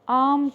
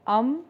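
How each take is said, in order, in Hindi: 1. पहला स्वर लंबा और खिंचा हुआ है। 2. पहला स्वर छोटा और तुरंत खत्म होने वाला है। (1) "बल्कि आम कहेंगे, यानी कि लंबी आवाज़ निकालेंगे" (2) "अलिफ अम नहीं कहेंगे"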